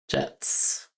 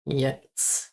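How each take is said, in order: First: It begins with an English 'j' sound. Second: It begins with a 'y' sound. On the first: The speaker calls it wrong. "Not like an English day" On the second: The speaker calls it right. "Oh, yets"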